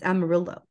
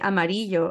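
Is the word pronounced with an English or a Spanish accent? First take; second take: English; Spanish. First: It is said with an English-accented pronunciation. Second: It is said with a native Spanish pronunciation. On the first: "that's wrong. It's amarillo" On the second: "you just speak Spanish like without an English accent"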